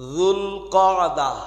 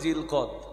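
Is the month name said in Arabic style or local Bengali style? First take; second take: Arabic; Bengali. First: It is said with a careful Arabic pronunciation. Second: It is said with a simplified local Bengali pronunciation. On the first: The speaker calls it right. "মুখস্থ করে নেন" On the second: The speaker calls it wrong. "এত ভালো উচ্চারণ না করতে পারায় প্রচলিতভাবে বলেন"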